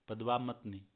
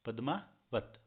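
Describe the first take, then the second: First: पद्मावत said as the misspelt padvamat, va before ma; wrong reading. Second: पद्मावत said properly as padmavat, ma before va; correct reading. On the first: Teacher reads the misspelt title aloud as the wrong form. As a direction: read पद्मावत the wrong way, swapping व and म. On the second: Teacher corrects the misspelt title, giving the right pronunciation. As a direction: give पद्मावत its correct form, pad-ma-vat. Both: Shown as a demonstration. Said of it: "ये यहाँ पे गलत लिख दिया".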